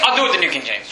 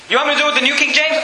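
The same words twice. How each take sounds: First: Low, falling statement; matter-of-fact answer. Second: Quick question, pitched up at the start; rapid challenge question. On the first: Preacher taking up the challenge himself, matter-of-fact. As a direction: answer the challenge in a dropped pitch. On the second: Preacher posing a doubter's challenge to himself, rapid questioning. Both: Acted.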